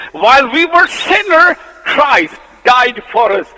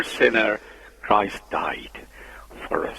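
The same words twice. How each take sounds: First: Loud, high, ringing proclamation of the verse; proclaimed verse. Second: Whispered verse. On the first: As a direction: cry the verse out to the church. Verse proclaimed, then whispered. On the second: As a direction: drop to a hushed whisper on Christ died. Same verse repeated, whispered. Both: Shown as a demonstration.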